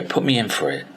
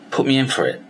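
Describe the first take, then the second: First: Said in the usual way. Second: Higher, pushing demand; insistent. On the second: Retold or imitated. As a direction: Put me in for it, pressed higher and firmer. Insisting on the award entry.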